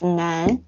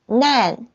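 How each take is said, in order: First: The syllable is said with the second tone. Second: The syllable is said with the first tone. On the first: It means difficult. "The second tone, it's 难 means difficult" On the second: It means disaster. "the first tone is 难 means disaster"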